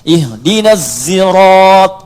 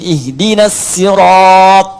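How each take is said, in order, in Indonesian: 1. S pada sirat terdengar sebagian seperti z. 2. S pada sirat itu s biasa yang ringan. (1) "Boleh dibaca ismam, ya, seperti terdengar huruf zai" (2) "Ruwais pakai sin"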